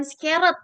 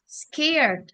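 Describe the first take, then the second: First: "scared" mistakenly in two syllables, ske-ret; wrong pronunciation. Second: "scared" as one drawn-out syllable; long vowel in "scared", no second syllable; correct pronunciation. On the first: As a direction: show the wrong "scared", extra vowel before the end. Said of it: "bukan scared". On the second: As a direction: model "scared" slowly, skaird. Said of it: "tapi scared". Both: Shown as a demonstration.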